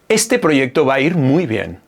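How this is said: The voice is pitched low and relaxed. The speaker feels calm and confident. "Ahí el tono baja"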